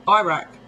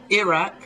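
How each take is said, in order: First: "Iraq" opening like EYE, EYE-rack; long i starting "Iraq"; American pronunciation. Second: "Iraq" with a short first i, ih-RACK; English pronunciation. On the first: English speaker showing how America says it, EYE-rack "Iraq". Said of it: "America says Iraq". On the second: English speaker showing how we say it, short-i "Iraq". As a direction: start "Iraq" like "irritate". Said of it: "we say Iraq". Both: Shown as a demonstration.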